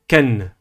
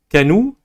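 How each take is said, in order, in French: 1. Le n n'est suivi d'aucune voyelle. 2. Le n est suivi d'une voyelle u. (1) "mais Ken ... Sans voyelle" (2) "ce n'est ni Kanou"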